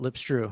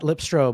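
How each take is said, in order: First: The name ends with an 'oo' vowel sound. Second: The name ends with an 'oh' vowel sound. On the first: The speaker calls it right. "but Lipstrew" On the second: The speaker calls it wrong. "not Lipstro"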